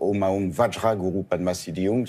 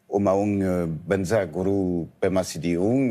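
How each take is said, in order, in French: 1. Elle a une prononciation sanskrite, avec vajra prononcé comme il est écrit. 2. Elle a une prononciation tibétaine, avec vajra qui sonne comme banza. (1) "plus sanscrite" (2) "d'une façon un peu tibétanisée"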